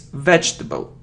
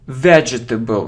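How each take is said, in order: First: The word is said with three syllables. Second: The word is said with four full syllables. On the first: The speaker calls it right. "it's vegetable, So we say j and t" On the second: The speaker calls it wrong. "it isn't vegetable"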